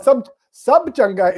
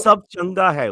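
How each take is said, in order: First: Slow, careful Punjabi phrase; corrected Punjabi phrase. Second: Attempted Punjabi. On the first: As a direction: say it slowly, correcting him. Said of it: "it's just too formal". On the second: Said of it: "which I don't think is correct". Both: Shown as a demonstration.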